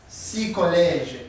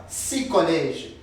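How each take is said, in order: No difference in how they are said.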